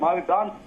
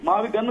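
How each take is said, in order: First: The last syllable sounds like 'gone'. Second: The last syllable sounds like 'gun'. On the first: The speaker calls it right. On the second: The speaker calls it wrong. "Pronunciation mistake, అది మావిగన్ కాదండి"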